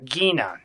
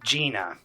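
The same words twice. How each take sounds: First: The G at the start is hard. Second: The G at the start is soft. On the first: "I'm going to pronounce it wrong on purpose" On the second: "because I know y'all wanted me to go there"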